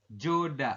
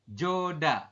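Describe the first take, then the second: Both takes have the same delivery.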